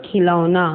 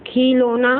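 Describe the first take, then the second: First: Said in the usual way. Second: खिलौना said as "khee-lo-na", pitched up; mispronounced खिलौना. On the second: Shown as a demonstration. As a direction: give खिलौना a long ee and a plain o. (खिलौना को गलत "खीलोना" बोलना) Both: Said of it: "अशुद्ध और शुद्ध".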